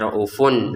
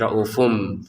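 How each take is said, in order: First: The word ends with an n sound. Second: The word ends with an m sound. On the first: The speaker calls it wrong. "kita tidak baca raufun lagi" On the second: The speaker calls it right. "tapi raufum"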